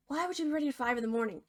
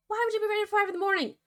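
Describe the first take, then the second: First: Said in the usual way. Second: Much higher, fast, squeaky outrage; exasperated disbelief. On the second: Real, not acted. Narrator repeats it at the pig, high and exasperated. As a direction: repeat it, now truly baffled. Narrator mocks the pig's answer.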